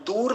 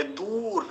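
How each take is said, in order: First: Said in the usual way. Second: दूर said "doo-ra", र voiced fully; long दू, then a complete "ra" in दूर; full final र. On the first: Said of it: "दूर नहीं बोलेंगे". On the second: Shown as a demonstration. Teacher correcting students on दूर, full final र. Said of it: "र को पूरा बोलेंगे".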